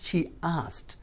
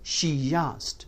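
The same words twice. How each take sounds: First: No y sound links she to asked. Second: A y sound links she to asked. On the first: The speaker calls it wrong. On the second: The speaker calls it right.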